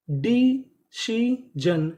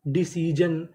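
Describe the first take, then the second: First: Loud, very slow "decision" in three pieces; syllable by syllable. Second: Said in the usual way. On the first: Shown as a demonstration. Teacher reads a new word to learners, slowly syllable by syllable. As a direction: stretch "decision" out, pausing after each syllable.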